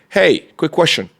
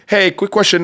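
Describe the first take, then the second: First: The voice sounds puzzled and gentle. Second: The voice sounds blunt and demanding. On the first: The caller is simply looking for someone. The speaker calls it right. "As you can see on my tonality, it's very like confused" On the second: The caller seems to be coming to complain. The speaker calls it wrong. "You come in to complain"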